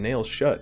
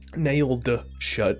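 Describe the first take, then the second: First: The words are slurred and not clearly enunciated. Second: The words are carefully and clearly enunciated. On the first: The speaker calls it wrong. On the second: The speaker calls it right.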